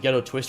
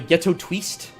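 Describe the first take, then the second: First: The name is said in a plain, ordinary way. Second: The name is said in a put-on fancy way.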